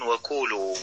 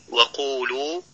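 First: وقولوا with a light k sound for the ق; faulty qaf. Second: Said in the usual way. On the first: Shown as a demonstration. Teacher imitating learners' mistake in recitation, faulty qaf. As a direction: mispronounce وقولوا as wakulu, kaf replacing qaf. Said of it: "فيقولون وقولوا". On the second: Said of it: "وكما في".

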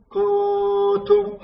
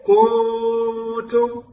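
First: "كنتم" بضمة قصيرة على الكاف دون واو; رتّل "كنتم" ببطء والغنّة على النون لا على الضمة; ضمّة غير مشبعة. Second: "كنتم" بمدّ ضمة الكاف حتى تصير واوًا "كونتم"; أشبِع ضمة الكاف في "كنتم" خطأً; ضمّة ممدودة واوًا. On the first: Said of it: "هكذا تقرأ". (تلاوة "كنتم" الصحيحة بكاف قصيرة الضمة) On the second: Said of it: "بعضهم يمد الضمة ويجعلها واوا". (تلاوة "كنتم" ببطء بواو زائدة بعد الكاف) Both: Shown as a demonstration.

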